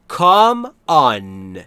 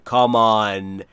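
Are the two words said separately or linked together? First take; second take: separately; linked. First: The two words are said separately. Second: The two words run smoothly together. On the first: "کام به م ختم میشه، آن با آ شروع میشه" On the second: "اینجوری روون بعد میتونید بگید و میچسبه به هم"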